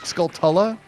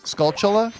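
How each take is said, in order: First: The middle consonant is a clear 't' sound. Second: The middle consonant is a 'ch' sound. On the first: "with like the T sound" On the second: "Do you say Skullchulla?"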